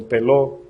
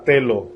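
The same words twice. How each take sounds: First: "teló" stressed on its last syllable, the O; stress on final O. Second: Said in the usual way. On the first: Shown as a demonstration. Preacher spelling out a Greek word for the church, "teló" stressed on the final O. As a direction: put the accent on the final O of "teló". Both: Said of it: "con acento en la O".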